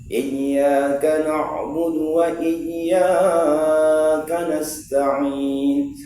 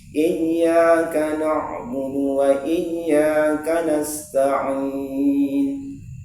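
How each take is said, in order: First: The second 'iyya' vowel is stretched to five beats. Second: Both 'iyya' vowels are held for two beats. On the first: The speaker calls it wrong. "di iya yang kedua bertambah dia menjadi lima ketukan" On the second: The speaker calls it right. "Harusnya harus sama"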